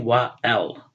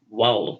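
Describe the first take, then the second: First: The two words are said as separate syllables. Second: The two words merge into one syllable. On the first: The speaker calls it wrong. "We don't say" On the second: The speaker calls it right. "So we say"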